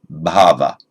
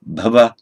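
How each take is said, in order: First: Bhava with the first a held long; long vowel demo. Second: Bhava with a short, clipped first a; short vowel demo. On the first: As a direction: stretch the a of bhava out. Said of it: "or long". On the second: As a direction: give Bhava a quick short a. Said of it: "either short". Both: Shown as a demonstration.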